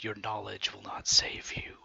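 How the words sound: It is said in a whisper.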